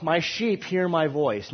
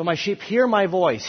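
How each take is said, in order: First: "sheep" leaned on, slow and drawn out; stress on sheep. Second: "hear" punched higher and louder; stress on hear. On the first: Teacher reading the verse to the class, slow stress on "sheep". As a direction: read slowly and land hard on "sheep". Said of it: "Now, the sheep here". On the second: Teacher rereading the verse to the class, raised punch on "hear". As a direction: hit the word "hear" and let the rest fall. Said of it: "Hear my voice is hearing". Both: Shown as a demonstration.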